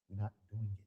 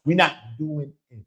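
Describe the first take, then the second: First: "We're not doing it" dropped much softer; quiet repeat. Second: Firm refusal. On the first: Speaking to his viewers, soft resolved repeat. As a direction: let the refusal sink to a hush. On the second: Refusing exploitation. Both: Real, not acted.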